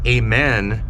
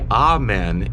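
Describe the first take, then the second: First: The first vowel is not an 'ah' sound. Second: The first vowel is an open 'ah' sound.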